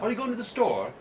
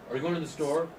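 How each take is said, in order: First: The pitch falls at the end of the question. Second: The pitch rises at the end of the question. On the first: It sounds like a British speaker asking. The speaker calls it wrong. "as a British person would ask a question ... their questions go down at the end" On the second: It sounds like an American speaker asking. The speaker calls it right. "in America, we go up at the end"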